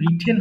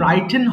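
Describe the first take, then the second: First: The first vowel sounds like 'it'. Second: The first vowel sounds like 'eye'. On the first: This is the correct current way of saying it. The speaker calls it right. "এটা কিন্তু রিটেন হবে। সঠিক উচ্চারণ বলবো রিটেন।" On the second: This is an old way of saying it. The speaker calls it wrong. "এটা কিন্তু রাইটেন হবে না। রাইটেন পুরাতন ভাবে বলতাম"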